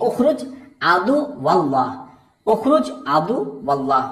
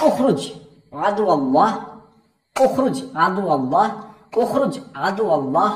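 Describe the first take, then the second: First: Chanted exorcism command. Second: Slow, spaced-out command with pauses between words; slow clear demo of the exorcism words; slow teaching version. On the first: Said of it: "এভাবে বলবেন". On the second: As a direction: spell it out slowly for the learners. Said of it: "আমি একটু ধীরে ধীরে বলছি". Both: Shown as a demonstration.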